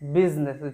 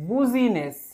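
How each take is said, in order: First: It is said normally, starting with 'biz'. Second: It is said as 'bu-zi-ness', following the spelling. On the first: The speaker calls it right. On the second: The speaker calls it wrong.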